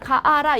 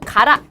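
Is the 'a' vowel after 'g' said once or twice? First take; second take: twice; once. First: The 'a' vowel is said twice before 'ra'. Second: The 'a' vowel is said once before 'ra'. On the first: The speaker calls it wrong. "이렇게 발음을 안 해요" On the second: The speaker calls it right. "그냥 하나를 빼"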